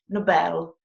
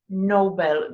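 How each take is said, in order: First: It is pronounced the Swedish way, ending like bell. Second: It is pronounced the English way. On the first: The speaker calls it right. "we say in Swedish Nobel. You hear the bell" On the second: The speaker calls it wrong. "in Swedish we don't say Nobel"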